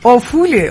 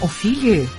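First: The second vowel sounds like 'u'. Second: The second vowel sounds like 'i'. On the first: The speaker calls it right. "افوله اصخایی میکنم، توپق بسیار بدی بود" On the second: The speaker calls it wrong. "چرا گفتم افیله؟"

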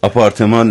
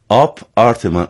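First: The word is said as one joined word. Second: The word is split with a break after 'Ap'. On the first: It names an ordinary apartment. The speaker calls it wrong. "آپارتمان نه" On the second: It refers to an art style within the name. The speaker calls it right. "سعی کردم من جدا بگم"

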